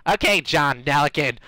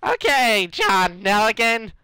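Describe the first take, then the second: First: Lightly voiced character, nearer natural pitch; second character attempt. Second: High put-on character voice; horrible character attempt. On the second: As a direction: pitch it up into a silly character voice. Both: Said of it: "Nah, that's horrible".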